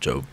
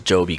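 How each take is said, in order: First: The name is one syllable, rhyming with robe. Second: The name is two syllables, ending in an ee sound. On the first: The speaker calls it wrong. "I just thought it was Job because I thought of robe" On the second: The speaker calls it right. "Sobe with the J"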